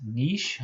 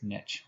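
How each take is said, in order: First: "niche" said the French way, as "neesh"; French pronunciation. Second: "niche" said the Anglo way, as "nitch"; American pronunciation. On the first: Biology lecturer showing students how French says it, "niche" as "neesh". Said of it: "in French, it would be pronounced". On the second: Biology lecturer telling students the pronunciation used here, "niche" as American "nitch". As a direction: say "niche" with a short i and a tch ending. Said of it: "I use the American, the Anglo". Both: Shown as a demonstration.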